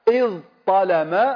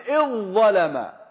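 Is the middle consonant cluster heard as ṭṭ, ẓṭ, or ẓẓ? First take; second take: ẓṭ; ẓẓ. First: The two consonants stay distinct, ẓ then ṭ. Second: Both consonants merge into a doubled ẓ. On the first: The original form without assimilation. "إذ طلم هذا واحد" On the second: Assimilated to the first letter. "تدغم بلفظ الأول"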